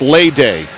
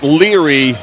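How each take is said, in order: First: The name sounds like 'Lay-day'. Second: The name sounds like 'Leary'. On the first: The speaker calls it right. "it's Lay Day" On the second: The speaker calls it wrong. "It's not Leary Mayayo"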